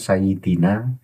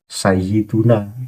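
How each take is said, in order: First: The middle vowel is 'i', as in sayyidina. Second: The middle vowel is 'u', as in sayyiduna. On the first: The word is in the genitive case. The speaker calls it wrong. "Jangan sayyidina" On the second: The word is in the nominative case. The speaker calls it right. "kita biarkan"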